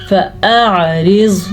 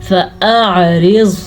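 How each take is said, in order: The two takes are said the same way.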